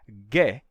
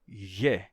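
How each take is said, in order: First: The consonant is a full stop closure. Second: The consonant is a palatalized fricative. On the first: The speaker calls it wrong. "isso não seria ge" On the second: The speaker calls it right. "se o rama for fricativo... palatalizando... e sim ge"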